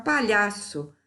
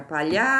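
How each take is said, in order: First: Said in the usual way. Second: Long, held "lha" in "Palhaço"; stressed syllable drawn out. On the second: Shown as a demonstration. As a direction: stretch the middle syllable of "Palhaço", rising. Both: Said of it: "procurar a sílaba tônica".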